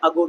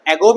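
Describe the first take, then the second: First: "ago" opening on a weak schwa; British pronunciation. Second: "ago" opening on the "a" of "cat"; American pronunciation. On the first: Teacher contrasting two ways to read "ago", British uh-GOH. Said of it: "ago is pronounced in British English". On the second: Teacher contrasting two ways to read "ago", American AG-oh. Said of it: "ago is pronounced in American English". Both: Shown as a demonstration.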